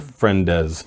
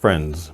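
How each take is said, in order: First: The plural ending is a separate extra syllable. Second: The plural ending joins the word without a syllable. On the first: The speaker calls it wrong. "adding a syllable to the end of some plural forms" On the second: The speaker calls it right. "it's just one"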